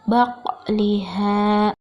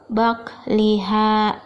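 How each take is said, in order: First: The q sound ends with a small bouncing echo. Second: The q sound stops flat with no echo. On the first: The speaker calls it right. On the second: The speaker calls it wrong.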